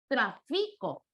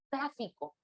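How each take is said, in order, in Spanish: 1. El acento está en la segunda sílaba. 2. El acento está en la primera sílaba. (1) "Si le diera acento grave" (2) "si lo doy un acento esdrújulo"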